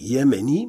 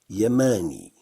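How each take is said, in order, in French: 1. Les voyelles sont des sons 'e' plus fermés. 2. Les voyelles sont des sons 'a' ouverts.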